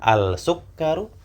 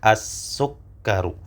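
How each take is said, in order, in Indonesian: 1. Huruf L pada artikel jelas dibaca. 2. Huruf L menyatu menjadi bunyi S ganda. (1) "apakah al-sukkaru?" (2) "Lam yang disukun tidak terbaca"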